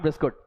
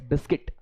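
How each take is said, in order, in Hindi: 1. दूसरा अक्षर 'kut' जैसा सुनाई देता है। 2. दूसरा अक्षर 'kit' जैसा सुनाई देता है। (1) "नॉट बिस्कुट" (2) "इट्स बिस्किट"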